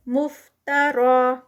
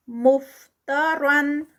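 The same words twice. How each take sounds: First: مفترا with a long final vowel like alif madd; recited stop form. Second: مفترن slowly with nasal end; recited continuous form. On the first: Teacher showing the stop. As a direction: stop at مفترا and hold it two counts. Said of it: "الف مد کی طرح روکیں گے". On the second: Teacher reciting continuously. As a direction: chant مفترن drawn out. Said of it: "Quran recitation demo". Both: Shown as a demonstration.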